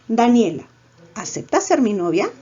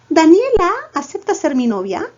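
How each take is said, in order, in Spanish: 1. El nombre se dice aparte y luego la pregunta. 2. La entonación de la pregunta empieza en el mismo nombre. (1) "Claro, después" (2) "si fuese antes de Daniela"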